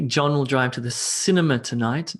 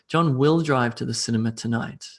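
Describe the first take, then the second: First: The stress falls on the word cinema. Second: The stress falls on the word will. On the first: He goes to the cinema, not the restaurant. "not the uh, restaurant" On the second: He is definitely going, despite doubts. "I put emphasis on the will aspect of the sentence"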